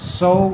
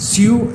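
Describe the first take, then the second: First: The vowel sounds like 'oh', as in so. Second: The vowel sounds like 'yoo', as in sue. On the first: The speaker calls it right. "ഇതിൻ്റെ ശരിയായ ഉച്ചാരണം സോ എന്നാണ്" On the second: The speaker calls it wrong. "അത് സ്യൂ എന്നാണ് നിങ്ങൾ ഉച്ചരിക്കുന്നതെങ്കിൽ അത് ശരിയല്ല"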